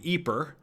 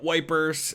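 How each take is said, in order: First: It is said with the local Flemish pronunciation. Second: It is said with a British pronunciation. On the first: This is what the natives call it. "the natives call the town Ypres" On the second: This is what the British called it. "the British called it Wipers"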